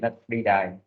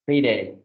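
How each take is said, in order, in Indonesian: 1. Vokal pada kata kedua terdengar seperti 'eye'. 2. Vokal pada kata kedua terdengar seperti 'ay'.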